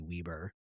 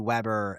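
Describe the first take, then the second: First: The first vowel is long, as in 'wee'. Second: The first vowel is short, as in 'web'. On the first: It matches a spelling with one B. "one B for me would be Weber" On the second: It matches a spelling with two B's. "Two B's for me would be Weber"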